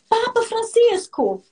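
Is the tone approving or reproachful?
approving. It is said in a teasing, approving tone. Go for it, she is winking at you. "Aí subiu o capetinha, né? E fez assim para ele"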